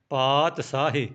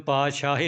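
First: ਪਾਤਸ਼ਾਹੀ said "paat-saahi", with s; long paat, then a plain s in ਪਾਤਸ਼ਾਹੀ; s without dot. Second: ਪਾਤਸ਼ਾਹੀ said "paa-shaahi", with sh; a hushing sh in the middle of ਪਾਤਸ਼ਾਹੀ. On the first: Teacher giving learners the word, s sound in ਪਾਤਸ਼ਾਹੀ. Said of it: "ਬਿੰਦੀ ਤੋਂ ਬਿਨਾਂ ਬੋਲਣਾ ਹੈ". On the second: Teacher showing learners the mistake, sh sound in ਪਾਤਸ਼ਾਹੀ. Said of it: "ਇਹਨੂੰ ਪਾਤਸ਼ਾਹੀ ਨਹੀਂ ਬੋਲਣਾ". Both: Shown as a demonstration.

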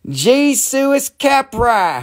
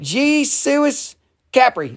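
First: Jesus Capra said high and slow as a joke mangling; mock mispronunciation. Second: Jesus Capri said high and slow, sounding like Jesus; drawn-out joking Jesus Capri; silly mispronunciation. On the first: Seller jokingly mangles the buyer's name, slow and high. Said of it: "I'll say". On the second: Seller repeats the name as Jesus Capri, slow and high. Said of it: "there you go". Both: Shown as a demonstration.

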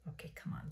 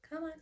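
First: Whispered urging; hushed come-on at a stuck tube. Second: Said in the usual way. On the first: Real, not acted. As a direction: coax the tube under your breath.

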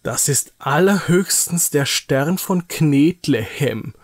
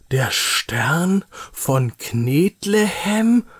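First: Slow, disdainful taunt; mock it with drawn-out contempt; scornful mockery. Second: Slow, higher, rising in disbelief; incredulous question. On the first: Nils sneering at Niki's balled-up clay star, mocking. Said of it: "spottet Nils mit einem verächtlichen Blick". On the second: Acted. Nils questioning mother about the clay lump, incredulous. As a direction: question it word by word, unbelieving. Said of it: "fragt Nils ungläubig".

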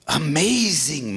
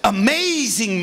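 First: Said in the usual way. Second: "Amazing" slow and louder, full of wonder; awed amazement. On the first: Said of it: "Moses said". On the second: Acted. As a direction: let the wonder swell slowly on "Amazing". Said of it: "Moses said to himself".

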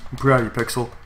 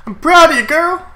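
First: Said in the usual way. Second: Much higher, louder pet-praise voice; cutesy praise. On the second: Real, not acted. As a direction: gush over the Pokemon like a pet. Praising his Pokemon.

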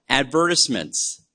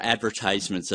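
First: "Advertisements" stressed on VER, short "tis"; non-American pronunciation. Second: "advertisements" with long "tise", like "eyes"; American pronunciation. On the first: Speaker names an overlooked newspaper section, non-American pronunciation. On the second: Speaker gives the word as said in the States, American pronunciation. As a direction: say "advertisements" as ad-ver-TIZE-ments, American way. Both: Shown as a demonstration. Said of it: "as we say in the States".

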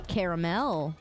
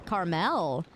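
First: "Caramel" as care-uh-MEL, low; care-uh-MEL pronunciation. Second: "Caramel" as car-MEL, low and falling; car-MEL pronunciation. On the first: Streamer trying out pronunciations, "Caramel" as care-uh-MEL. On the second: Streamer trying out pronunciations, "Caramel" as car-MEL. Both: Shown as a demonstration. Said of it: "people always say it differently".

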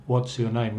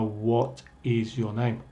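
First: "What's your name" with what and is run together; natural conversational contraction in "What's your name"; contracted WHAT'S. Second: "What is" as two distinct words, slower; slow, unjoined "What is your name"; uncontracted WHAT IS. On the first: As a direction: join What and is into one syllable, "What's". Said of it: "van a decir". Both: Shown as a demonstration.

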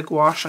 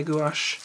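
First: "gouache" as one syllable, GWASH; alternative pronunciation. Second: "gouache" in two syllables, goo-AHSH; own pronunciation. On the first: Showing how some people say it, "gouache" as one-syllable gwash. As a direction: say "gouache" with a quick w glide, gwahsh. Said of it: "Some people say gouache". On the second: Giving the speaker's own way, "gouache" as two-syllable goo-ahsh. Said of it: "I say gouache". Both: Shown as a demonstration.

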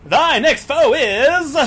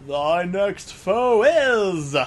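First: Higher, much louder showman voice; game show host voice. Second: Slow, drawn-out announcer voice; booming game show host. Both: Pretend. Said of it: "[name] now has a game show host voice".

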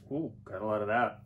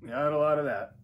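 First: Said in the usual way. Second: Higher, louder repeat with stress on lot; louder, higher echo of the first try. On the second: Real, not acted. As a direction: say it again, punching lot.

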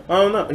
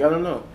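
First: A quick, higher British "I don't know"; a light British accent, pitched up. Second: A mild British "I don't know"; a hint of British in the repeat; British accent. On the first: Retold or imitated. Imitating Jefferson Jackson's British accent to the Legends. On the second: Repeating Jefferson Jackson's shrug in a mild British accent. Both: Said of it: "in his British accent".

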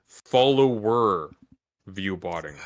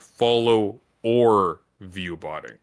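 First: "follower view botting" run together slowly as one word, "follower"; drawn-out single word. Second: "follow or view botting" slowly with the "or" drawn out; drawn-out separate words. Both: Shown as a demonstration. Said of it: "You were saying follow or view botting".

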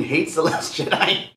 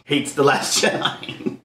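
First: Said in the usual way. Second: Hates The Last Jedi breathed slow and unvoiced; hates The Last Jedi, whispered slowly. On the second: Shown as a demonstration. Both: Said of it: "when I mean".

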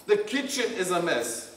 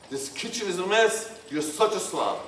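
First: Calm, gentle, no blame; just state the problem calmly; gentle startup. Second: Harsh criticism. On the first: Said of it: "gentle startup". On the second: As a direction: scold your partner harshly about the kitchen. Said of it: "harsh, blaming, or hurtful expressions". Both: Shown as a demonstration.

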